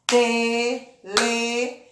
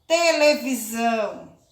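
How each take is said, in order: First: "televisão" in four spaced beats, te - le - vi - são; split into syllables. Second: Said in the usual way. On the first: Shown as a demonstration. ("televisão" separado em sílabas: te - le - vi - são) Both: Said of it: "Bati a mão quatro vezes".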